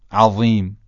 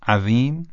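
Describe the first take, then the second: First: "عظیم" with thick, emphatic ظ; heavy ẓāʾ take. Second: "عظیم" with thin dhāl, pitch rising; light dhāl take. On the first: Teacher contrasts the two letters, "عظیم" with heavy ẓāʾ. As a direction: make the ظ in "عظیم" dark and full. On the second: Teacher contrasts the two letters, "عظیم" with thin dhāl. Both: Shown as a demonstration. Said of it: "تفاوت رو دقت بفرمایید".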